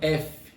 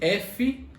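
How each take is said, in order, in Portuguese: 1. O nome da letra é curto e seco. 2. O nome da letra é mais longo, com vogal no final. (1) "a gente meio que corta no meio da palavra" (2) "Em vez de F"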